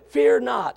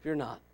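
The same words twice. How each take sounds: First: Loud, high preacher's yell; raised-voice command. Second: Hushed, unhurried assurance; calm, not yelled. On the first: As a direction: yell the reassurance out. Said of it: "I don't believe he yelled at him". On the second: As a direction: say it quietly, without any yell. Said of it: "I believe that's how he said it". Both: Shown as a demonstration.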